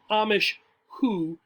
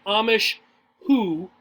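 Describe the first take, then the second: First: Sped up. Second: The wrong, slow way; said too slowly. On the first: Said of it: "speeding up the pronunciation". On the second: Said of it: "Don't say". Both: Shown as a demonstration.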